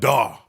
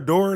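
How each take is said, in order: First: The final r sound is dropped. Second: The final r sound is fully pronounced. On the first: This is how people from elsewhere say it. The speaker calls it wrong. "Y'all be like, daw. Y'all don't say the whole word" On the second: This is how the speaker's own region says it. The speaker calls it right. "That's how it's supposed to say"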